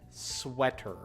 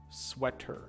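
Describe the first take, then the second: First: It starts with sw and ends in ter. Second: The same.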